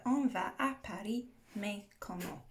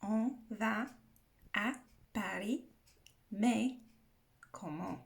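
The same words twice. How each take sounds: First: A bit fast. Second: Word by word, with clear gaps; slowed down for learners. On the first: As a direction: say the French phrase briskly, in one run. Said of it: "I'm probably saying that a bit fast". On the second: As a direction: break "On va / à Paris / mais / comment" into separate careful pieces. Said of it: "saying that a bit fast". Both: Shown as a demonstration.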